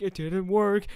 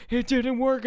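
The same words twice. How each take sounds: First: Panicked. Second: More panicked. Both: Retold or imitated.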